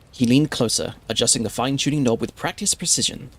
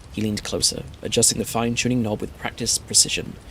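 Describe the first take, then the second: The two takes are said the same way.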